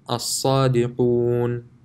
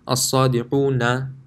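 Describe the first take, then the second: First: The word ends on a bare consonant. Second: The word ends with a final short vowel. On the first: The reciter stops on this word. "if I intend on stopping here, then I would change this into a sakin" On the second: The reciter continues on to the next word. "if I were to continue, it would be as-sadiquna"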